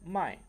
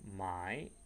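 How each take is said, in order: First: The tone falls. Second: The tone goes up and down. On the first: It means to sell. "mai pakai nada turun" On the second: It means to buy. "mai dia pakai nada naik turun"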